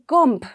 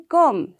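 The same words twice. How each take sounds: First: The final B sound is pronounced. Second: The final B sound is left silent. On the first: The speaker calls it wrong. "we don't say comb" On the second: The speaker calls it right. "We say comb. So the B will remain silent"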